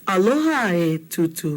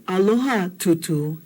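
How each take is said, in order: First: "Aloha, e Tutu." with a clear e before Tutu. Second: Said in the usual way. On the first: Shown as a demonstration. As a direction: say "e" distinctly to call Tutu's attention. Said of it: "This A is very important". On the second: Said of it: "it wasn't".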